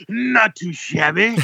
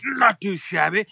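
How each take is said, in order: First: High, slow, drawn-out cheery reply; goofy imitation of the cashier; enthusiastic clerk. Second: Lightly high, slowish cheery reply; a hint of the overeager cashier; a lighter cashier imitation. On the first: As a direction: sing it out like an overeager cashier. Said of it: "He goes". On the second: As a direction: repeat the cashier line less broadly. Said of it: "he goes".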